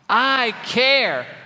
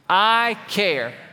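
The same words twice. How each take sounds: First: It is said with warm, strong feeling. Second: It is said plainly, without much feeling.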